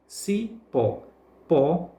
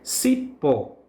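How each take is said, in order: First: Cipó split as ci... PÓ, then Pó alone; stressed syllable demo. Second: Said in the usual way. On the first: Shown as a demonstration. Teacher pointing out the tonic syllable, cipó broken up with stress on PÓ. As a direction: separate ci and PÓ, then repeat Pó by itself. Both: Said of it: "pronunciada com mais força".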